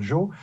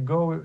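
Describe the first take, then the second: First: It starts with a soft j sound. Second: It starts with a hard g sound. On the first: This is how a French reader would say it. "on prononcerait bien sûr Jo" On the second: This is the intended English word. "le mot anglais Go"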